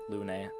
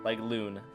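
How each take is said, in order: First: The name is said with a French-like vowel. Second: The name rhymes with the English word loon. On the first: "But they they say it like Lune" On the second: "It's like loon"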